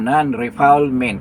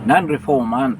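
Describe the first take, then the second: First: It is read out the way it is spelled. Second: It is said with a French pronunciation. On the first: "Kung basahin mo" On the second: "Pero ang pronunciation, pronunciation yan, dahil uh, ano yan is French word"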